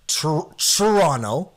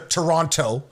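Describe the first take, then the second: First: The T sounds almost like a ch. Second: The T is a clear plain t sound. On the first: The speaker is a local. "where it's almost like a C H" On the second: The speaker is not from the city. "probably an American or someone not at all anywhere near the city"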